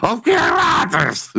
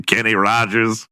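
First: Mock excited cry. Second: Said in the usual way. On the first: Host gushing over a country singer, mock excited. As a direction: cry out the name high, breaking into a laugh.

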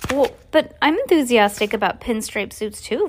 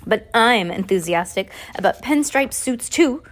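First: Lightly voiced polite girl; a hint of a dutiful young girl; Violet's voice. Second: A hint of the snooty lady's voice; Esme's voice by mistake. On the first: Violet politely faking delight, lightly voiced. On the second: Reader slipping into Esme's voice, lightly haughty. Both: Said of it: "I thought that was gonna be the other lady".

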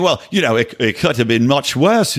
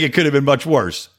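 First: Put-on botched New Zealand accent on WORSE; bad New Zealand accent. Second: Said in the usual way. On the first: Host mimicking the actor's tweet, bad New Zealand accent. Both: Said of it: "not a good New Zealand accent".

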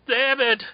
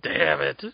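First: Damn it, pitched way up; exasperated higher cry; higher frustrated damn it. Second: Said in the usual way. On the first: Real, not acted. Second take much higher.

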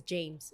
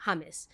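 First: "James" said the English way with a J sound, JAYMZ. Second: "James" said the Spanish way, HAH-mees, with an h sound. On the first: Explaining her uncle's name, she says the English "James". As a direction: say "James" as an English speaker would. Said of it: "his name is James in English". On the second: Explaining her uncle's name, she says the Spanish "James". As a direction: say "James" like a Colombian family does. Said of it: "we only call him Ham". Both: Shown as a demonstration.

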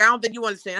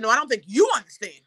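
First: I don't think you understand, weight on don't; doctor's stress on don't. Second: No, I don't think you understand, with you punched hard; stress thrown back on you. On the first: Doctor telling patient she doesn't get it, stress on don't. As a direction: lean on the word don't, patronising. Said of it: "She's like". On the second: Patient firing the doctor's line back, stress on you. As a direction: hit the word you to turn it back on her. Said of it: "I said". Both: Retold or imitated.

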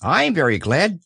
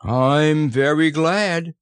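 First: High, small happy voice; light, quicker little echo of gladness; happy Piglet. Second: Slow, high, contented bear voice; hearty, drawn-out gladness; happy Pooh. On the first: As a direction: chime in brightly as a little animal. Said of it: "said Piglet happily". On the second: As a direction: stretch it out with happy satisfaction. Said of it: "said Pooh happily". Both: A narrator's reading.

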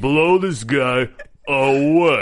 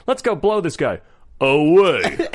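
First: Slow, lower Stallone drawl. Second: Stallone voice. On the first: Repeating the quote, slow lightly voiced Stallone. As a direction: stretch it out like Stallone. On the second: Quoting Demolition Man, lightly voiced Stallone. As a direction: growl the action line like Stallone. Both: Retold or imitated. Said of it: "your Stallone".

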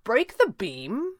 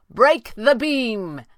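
First: Slow, high question, rising; playing dumb. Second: Loud, drawn-out high call, falling; called command. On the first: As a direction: echo it back as an innocent question. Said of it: "elected to play dumb". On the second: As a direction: shout the order up, stretching each word. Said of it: "he called". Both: A narrator's reading.

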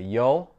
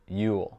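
First: "you'll" with an o as in "hole"; casual "you'll", rhyming with "coal"; "you'll" as yol. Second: "you'll" with the vowel of "you"; careful "you'll", rhyming with "pool"; "you'll" as yule. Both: Shown as a demonstration. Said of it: "différemment chaque fois que".

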